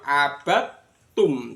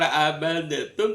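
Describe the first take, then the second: First: The d merges directly into a doubled t. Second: The d is sounded separately with a bounce. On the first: The speaker calls it right. "tapi langsung masuk abatum" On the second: The speaker calls it wrong. "nggak dibaca kol-kol abadetum"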